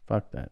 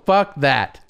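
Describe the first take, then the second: First: It is whispered quietly. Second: It is said in full voice.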